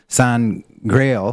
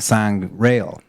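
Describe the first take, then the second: First: The g sound begins the second part. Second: The g sound ends the first part. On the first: It means the Holy Grail. "Holy Grail" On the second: It means holy blood. "Holy Blood"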